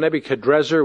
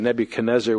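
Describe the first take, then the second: First: An r sound comes before the final -ezzar. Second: An n sound comes before the final -ezzar. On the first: This is closer to the original Chaldean pronunciation. "is actually probably the more accurate pronunciation" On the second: This is the familiar form from the Hebrew transliteration. "we're also used to the Nebuchadnezzar, which the Hebraized transliteration leads us to"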